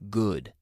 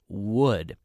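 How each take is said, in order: First: The word begins with a hard G sound. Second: The word begins with a rounded W sound. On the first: The speaker calls it wrong. "I hear a lot of my students say good or similar" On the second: The speaker calls it right. "but would"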